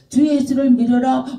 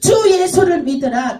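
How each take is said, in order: First: It is mumbled weakly inside the mouth. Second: It is declared loudly and forcefully.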